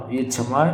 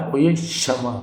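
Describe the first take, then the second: First: क्षमा begun with a "chh" sound; wrong pronunciation. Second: क्षमा begun with a "sh" sound; correct pronunciation. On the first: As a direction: say क्षमा as "chhama". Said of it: "ये गलत होगा". (क्षमा को "छमा" बोलें) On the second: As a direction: say क्षमा as "kshama", with a hissed start. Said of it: "ये सही होगा". (क्षमा को "क्ष" की ध्वनि से बोलें) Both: Shown as a demonstration.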